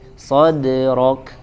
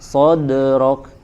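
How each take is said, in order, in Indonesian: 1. Bunyi d itu ringan dan tipis. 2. Bunyi d itu berat dan tebal. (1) "padahal harusnya tipis" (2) "menebalkan huruf qalqalah yang tipis"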